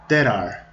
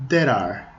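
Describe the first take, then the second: Both takes have the same delivery.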